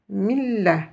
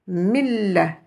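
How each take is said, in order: Both takes have the same delivery.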